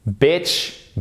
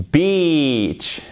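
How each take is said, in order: First: "Bitch" with short ih, higher and rising; short clear vowel in "Bitch"; short vowel drill. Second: "beach" with long EE, higher then falling; long vowel drill. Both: Shown as a demonstration. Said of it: "On le fait ensemble".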